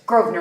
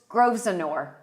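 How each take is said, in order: First: The name is said in a shortened form. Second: The name is read out fully as spelled. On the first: This is how locals say it. The speaker calls it right. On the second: This is how a newcomer first said it. The speaker calls it wrong.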